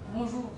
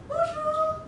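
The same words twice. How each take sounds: First: The greeting is said with a low, flat pitch. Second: The greeting is said with a very high pitch. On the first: The speaker sounds indifferent. "âm giọng nó hơi trầm xuống không?" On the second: The speaker sounds a bit silly. "cao quá bonjour thì sẽ hơi ngu một tí"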